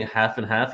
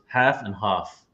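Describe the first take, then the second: First: Said in the usual way. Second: "half and half" with the second vowel broad, as "hahf"; dad's English pronunciation. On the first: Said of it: "instead of saying half and half". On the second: Retold or imitated. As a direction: imitate dad's "half and half", ending on a long British "ah". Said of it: "he goes half and half".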